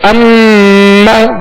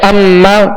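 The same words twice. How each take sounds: First: The doubled m is held long with nasal sound. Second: The doubled m is short, without nasal holding. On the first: The speaker calls it right. "गुन्ना करने की वजह से इसमें ज्यादा देर लगी" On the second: The speaker calls it wrong. "अगर इसमें गुन्ना नहीं करेंगे दोहरा तो पड़ा जाएगा"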